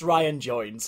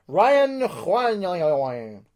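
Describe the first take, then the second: First: The name is pronounced in a plain, ordinary way. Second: The name is pronounced in a showy, exaggerated way. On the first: "It's Ryan Jones" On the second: "I just want to sound a little bit more extravagant with my pronunciations"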